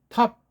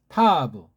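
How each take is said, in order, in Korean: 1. 마지막 자음이 모음 없이 딱 끊겨요. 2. 마지막 자음 뒤에 모음이 와요. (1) "두 번째 읽기는 우리 정음식으로 읽은 거예요" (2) "이런 식으로 보통 이제 서양 글자고 ... 서양인들은 그렇게 읽지만"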